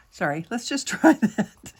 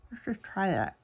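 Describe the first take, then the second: First: Said in the usual way. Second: Words round a pen in the mouth; pen in teeth. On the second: Real, not acted. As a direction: talk with a pen held in teeth. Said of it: "Don't talk with a pen in your mouth".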